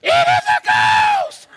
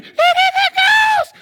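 First: High, slow shriek of terror; panicked high cry of fear; terrified cry. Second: High, loud shriek of terror; panicked high scream; terrified cry. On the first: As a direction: scream it like you see a ghost. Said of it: "they were terrified". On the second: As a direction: shriek it in panic, half laughing. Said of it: "They were afraid". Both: Acted.

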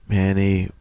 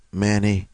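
The two takes are said the same way.

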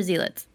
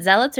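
First: Zealots said as ZEE-luts; zealots, long first vowel, "ZEE-luts". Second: Zealots said as ZELL-uts; zealots, short first vowel, "ZELL-uts". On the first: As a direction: say zealots with the ee of "see". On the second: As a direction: say zealots with the e of "bell". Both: Shown as a demonstration. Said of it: "So is it zealots or zealots".

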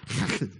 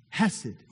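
First: Chesed with a throaty Hebrew ch at the start; Hebrew pronunciation. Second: Said in the usual way. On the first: Shown as a demonstration. Pastor shows the congregation the Hebrew sound, throaty ch in chesed. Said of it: "If I could say it with a Hebrew accent". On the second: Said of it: "but I can't really do that".

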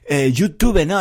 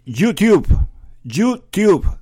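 First: "YouTube" said the Spanish way, /ʝutuβe/, with a final e; "YouTube" with a Spanish final vowel; Spanish pronunciation. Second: "YouTube" said the English way, /ʝutub/, final e dropped; "YouTube" in English with no final vowel; English pronunciation. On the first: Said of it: "es feísimo". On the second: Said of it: "aquí como yo lo pronuncio". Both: Shown as a demonstration.

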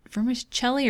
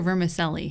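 First: "vermicelli" with CH, as ver-mi-CHELL-ee; Italian-style CH in "vermicelli"; vermicelli with a CH sound. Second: "vermicelli" with S, as ver-mi-SELL-ee; vermicelli with an S sound. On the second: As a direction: say "vermicelli" with a "selly" ending. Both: Shown as a demonstration. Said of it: "How do you say it?".

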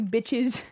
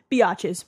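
First: Said in the usual way. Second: BIATCHES, stretched out from bitches into bee-AH-ches. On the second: Real, not acted. Host correcting herself while reading a listener's letter, biatches as bee-AH-ches. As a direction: say "biatches" with an extra AH syllable. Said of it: "my bad".

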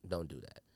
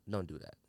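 The two takes are said the same way.

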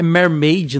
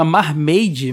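First: "Mermaid", first vowel closer to eh; English-style "Mermaid", MER in the first syllable; supposed correct pronunciation. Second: "Marmaid", first vowel an open ah; Portuguese-style "Marmaid", MAR as in "mar"; wrong dubbed pronunciation. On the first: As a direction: say "Mermaid" with "mer", not "mar". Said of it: "Eu não sei se a pronúncia". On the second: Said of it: "a pronúncia da gente era muito errado". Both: Shown as a demonstration.

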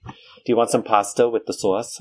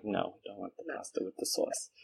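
First: Put-on mom's New York accent. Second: Put-on far softer New York-accented refusal. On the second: Turning down mom's pasta, soft New York accent. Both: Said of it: "do it right when you imitate the accent".

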